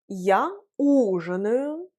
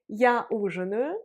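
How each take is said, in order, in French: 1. C'est prononcé lentement. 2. C'est prononcé à un rythme plus rapide, normal. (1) "la première fois, je l'ai prononcé lentement" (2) "je l'ai prononcé de façon normale"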